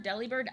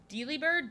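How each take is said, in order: First: "Delibird" with a short DEL as in deli; alternate pronunciation. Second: "Delibird" with a long DEE at the start; alternate pronunciation. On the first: Streamer unsure of a Pokemon name, trying "Delibird" as DELL-ee-bird. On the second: Streamer unsure of a Pokemon name, trying "Delibird" as DEE-lee-bird. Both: Real, not acted. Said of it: "I cannot pronounce anything".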